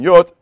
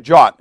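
First: The word begins with a 'y' sound. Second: The word begins with a 'j' sound. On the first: This is the older form of the word. "instead of it saying yot" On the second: This is the later form that came through Germanic languages. "we say jot"

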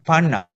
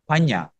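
First: The middle consonant is a plain n sound. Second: The middle consonant is a ny sound. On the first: The speaker calls it wrong. "Not panna" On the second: The speaker calls it right. "N has that curve"

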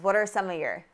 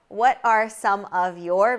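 First: The words are reduced and run together smoothly. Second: Each word is pronounced fully and separately.

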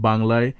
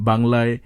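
Both takes have the same delivery.

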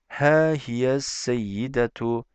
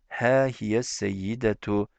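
No difference in how they are said.

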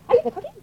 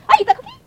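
First: The voice falls at the end. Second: The voice rises at the end.

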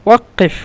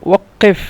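The two takes are said the same way.

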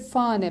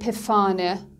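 First: The word begins with a plain f sound. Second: The word begins with a pf sound. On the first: The speaker calls it right. "پ و اف صدای ف رو تولید میکنه" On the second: The speaker calls it wrong. "نمیتونیم بگیم پفانه"

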